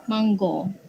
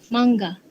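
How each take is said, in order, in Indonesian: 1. Ini diucapkan dengan pelafalan dialek Negeri Sembilan. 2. Ini diucapkan dengan pelafalan bahasa Melayu baku. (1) "Dialek Negeri Sembilan" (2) "bahasa Melayu standard"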